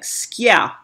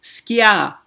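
First: The word has a y sound after k. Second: The same.

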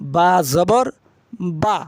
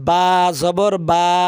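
First: The final vowel is kept short. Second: The final vowel is drawn out long. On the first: The speaker calls it right. "কিন্তু হরফের উচ্চারণ টান হবে না" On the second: The speaker calls it wrong. "এরকম টান দিচ্ছেন"

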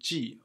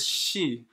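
First: It begins with a j-like sound. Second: It begins with a soft sh-like sound. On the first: It is the verb reading meaning to tie. "used as a verb to tie, we use the pronunciation 系, alright? J-I" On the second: It is the noun reading of the character. "that is used for the noun"

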